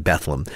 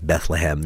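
First: The name is said in a shortened, clipped form. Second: The name is said with all syllables fully. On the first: This is how locals say it. The speaker calls it right. "You say Bethlehem" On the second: This is how outsiders say it. The speaker calls it wrong. "nobody up there says Bethlehem"

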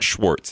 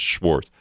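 First: The name ends with a 'ts' sound. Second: The name ends with a plain 'z' sound. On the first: The speaker calls it wrong. "it's not Schwartz" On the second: The speaker calls it right. "it's Schwartz"

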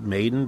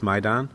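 First: The word ends like the English word 'maiden'. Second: The word ends with a 'dahn' sound. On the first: The speaker calls it wrong. "you might pronounce it Maiden" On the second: The speaker calls it right. "but it's Maidan"

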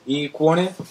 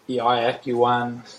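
First: The name is said with Italian pronunciation. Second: The name is said with Australian pronunciation. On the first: "many Italians might pronounce it" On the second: "many Australians might pronounce it"

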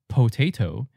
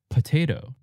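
First: No syllable is reduced; every vowel sounds full. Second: Only the first syllable is reduced to a schwa. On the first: The speaker calls it wrong. "We don't say potato" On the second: The speaker calls it right. "we de-stress the first syllable, po, and it becomes p"

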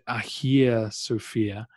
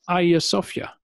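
First: The name is pronounced the Greek way. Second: The name is pronounced the Turkish way. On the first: "The Greeks who built it would now call it" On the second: "In Turkey, it's just"

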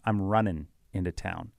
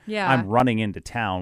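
First: The g at the end of running is dropped. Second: The g at the end of running is pronounced. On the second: "it was never"

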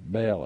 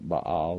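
First: The name is said with an English pronunciation. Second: The name is said with a non-English pronunciation.

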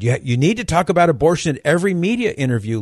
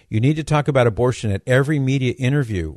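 First: It is said in an annoying, nagging voice. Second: It is read in a plain, neutral voice.

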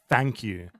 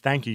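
First: Thank begins with an f sound. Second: Thank begins with a th sound. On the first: "you say" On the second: "rather than saying"

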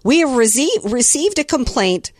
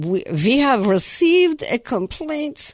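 First: It is said in the speaker's ordinary accent. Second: It is said in a put-on German accent.

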